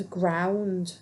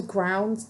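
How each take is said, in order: First: GROUND drawn out long; odd stress on ground. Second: Said in the usual way. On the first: Real, not acted. Reader surprising herself mid-card-reading, ground oddly drawn out. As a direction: stretch out the word ground. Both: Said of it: "I don't know why I said it like that".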